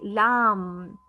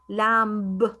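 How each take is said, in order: First: The word ends with an M sound only. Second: The word ends with an audible B sound. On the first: The speaker calls it right. "letter B becomes silent. So I say lamb" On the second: The speaker calls it wrong. "I do not say, for example, lamb. That's wrong"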